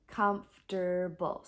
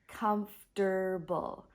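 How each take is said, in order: First: The word is said with just three syllables. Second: The word is said with just three syllables.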